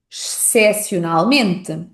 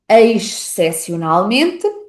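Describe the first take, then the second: First: The first syllable sounds like 'sh'. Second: The first syllable sounds like 'eis'.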